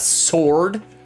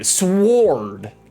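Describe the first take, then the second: First: It is said without a W sound. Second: It is said with a clear W sound. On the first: The speaker calls it wrong. "It's not sword" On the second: The speaker calls it right. "There's a W in there. There's a W"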